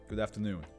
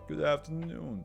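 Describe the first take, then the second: First: It is said in a plain, natural voice. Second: It is said in a put-on posh voice. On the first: "let's just give Doctor Mirth my normal voice" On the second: "I want to give the butler more of like a posh voice"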